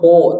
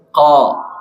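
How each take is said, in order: First: The vowel is said with rounded lips. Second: The vowel is said with the mouth wide open. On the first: The speaker calls it wrong. "sanes ko" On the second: The speaker calls it right. "tapi ko ... mangap ya ko"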